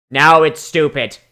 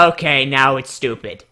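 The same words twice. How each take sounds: First: "Now it's stupid" slow and louder; emphatic repeat. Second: Said in the usual way. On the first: Real, not acted. Reviewer repeating a jab at the backstory, slow and emphatic. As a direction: lean on it, slowly, for the joke.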